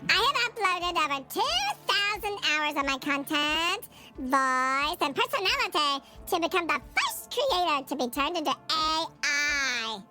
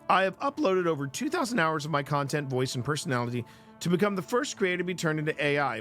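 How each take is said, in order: First: It is read in a put-on character voice. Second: It is read in his natural voice.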